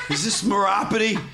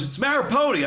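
First: Mock-drunk botching of the name as "Maropati"; drunk mispronunciation. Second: "Marapoti" with the stress on PO, pitched high; irritated correction. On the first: Prank caller getting "Maropati" wrong on the phone, drunk mispronunciation. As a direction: say "Maropati" with the stress on ROP, raised pitch. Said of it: "like I'm a drunk guy". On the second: Retold or imitated. Prank victim correcting "Marapoti" to the caller, irritated correction. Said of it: "He goes".

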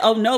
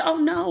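First: Said in the usual way. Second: "Oh, no" pitched much higher, drawn out in dismay; dramatic dismay. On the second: Shown as a demonstration. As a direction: make "Oh, no" sound truly heartbroken. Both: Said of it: "But I said, "Oh, no".

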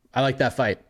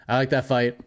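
No difference in how they are said.

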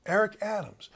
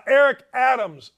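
First: Toned down, softer voice; talking softer. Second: Loud, punched-out name; yelling. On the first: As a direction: dial the volume back on the name. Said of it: "I'm gonna talk softer". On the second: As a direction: project it too loud, like a radio host. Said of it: "why am I yelling?". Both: Real, not acted.

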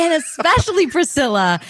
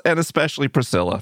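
First: Higher, bright echo of the greeting; host greeting. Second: Said in the usual way. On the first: Shown as a demonstration. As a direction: repeat it as a host. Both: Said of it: "start greeting Priscilla".

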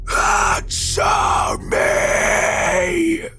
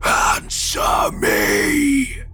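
First: Very long, high rasping shriek; monstrous raging scream. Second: Harsh, high, drawn-out rasping shout; monstrous demand. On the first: Gray man smashing the windshield, screams in rage. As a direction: hold the last word in a huge harsh scream. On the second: Gray man demands an answer from the driver, harsh snap. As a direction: stretch the last word into a rasping scream. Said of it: "he snapped". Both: A narrator's reading.

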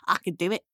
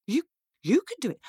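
First: Lower, steady imp voice; calmly sure imp reply; small imp. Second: High, stammered disbelief; quick, swooping astonishment; incredulous girl. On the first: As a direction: insist evenly, as the imp. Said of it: "said the imp". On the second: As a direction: repeat it in amazed doubt. Girl astonished at imp's claim. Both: Acted.

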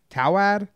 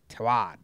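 First: Tawad with a rising, doubtful tune; questioning try at the name. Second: Tawad said low, falling, giving up; settled try at the name. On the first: Host puzzling over a sponsor's name, questioning. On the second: Host giving up on a sponsor's name, trailing off. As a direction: land the name flatly and let it drop. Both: Real, not acted. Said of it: "I don't know".

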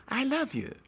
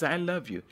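First: I love you lifted much higher; high tender I love you. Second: Said in the usual way. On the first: Shown as a demonstration. Love speaks, repeated declaration.

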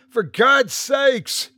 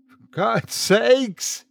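First: High, slow anguished cry; shout. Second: High, drawn-out despairing cry; shout. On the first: Father shouting as the door slams, slow and high. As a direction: stretch it out in despair. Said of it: "he shouted". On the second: Father shouting after his family has gone, high and slow. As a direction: cry it out once more, slower. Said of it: "he shouted again". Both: A narrator's reading.

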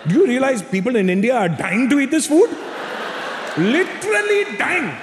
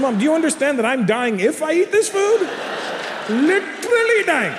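First: High, strained scolding mother; mock a mother's indignation, drawing out the last words; imitated outraged mom. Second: Put-on very high, exasperated kid's protest; imitated pleading son. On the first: Mother scolds son refusing Indian food, high mock outrage. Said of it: "Mom goes". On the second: Son protests to mother about food, high mock exasperation. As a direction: argue back at mom, drawing out the last words. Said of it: "I said".

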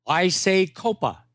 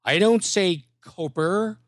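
First: "Copa" ending in an open ah; corrected pronunciation. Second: "Coper" ending in a hard R; contrasted wrong pronunciation. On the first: Host correcting the impressionist, slow "Copa" ending in ah. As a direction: slowly finish "Copa" with no R. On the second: Host correcting the impressionist, slow "Coper" with final R. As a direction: lean on the R at the end of "Coper". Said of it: "and he says". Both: Retold or imitated.

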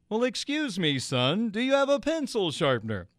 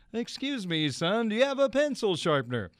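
First: A gentle, courtly ballpark announcer asking politely; mild imitation of the famous radio voice; Vin Scully impression. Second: Lightly imitated radio announcer; Vin Scully impression. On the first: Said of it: "he did it in the voice". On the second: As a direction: savor the famous voice, politely asking. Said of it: "That's the voice".

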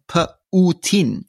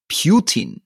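First: Put-on "Putin" slow and split, puh-oo-TEEN; Russian spelling pronunciation. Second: Put-on "Putin" as PYOO-teen, with a y-glide; co-host's mispronunciation. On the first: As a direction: sound out "Putin" slowly with a pure oo. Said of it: "in Russian, and then he writes it out". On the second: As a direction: say "Putin" with "you" in the first syllable. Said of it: "Alistair's pronunciation would be the U". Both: Shown as a demonstration.

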